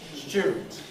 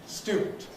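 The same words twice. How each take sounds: First: Younger London pronunciation, with a different first sound. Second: Conservative pronunciation, with the older first sound. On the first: "some people, particularly in London, particularly people under about thirty years of age, say student" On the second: "my more conservative pronunciation"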